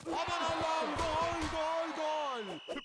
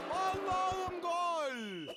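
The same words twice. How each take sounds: First: Screaming football commentator. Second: Long drawn-out goal scream; stretched goal call. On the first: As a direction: belt out gol gol gol. Goal call in commentary. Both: Acted.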